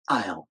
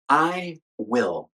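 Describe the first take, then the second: First: The words merge into one short syllable. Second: Both words are said fully and separately. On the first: "and then the contraction" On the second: "I'll say the full version first"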